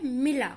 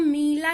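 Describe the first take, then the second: First: "मिला" with a short first i; short vowel. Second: "मीला" with a stretched first ee; wrong long vowel. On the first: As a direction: pass quickly over the i in "मिला". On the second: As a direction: drag out the ee in "मीला". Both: Shown as a demonstration. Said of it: "इसको हम मीला नहीं करते हैं".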